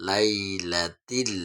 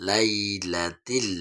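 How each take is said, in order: The two takes are said the same way.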